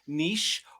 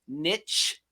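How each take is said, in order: First: It is said in a non-American way. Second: It is said the American way.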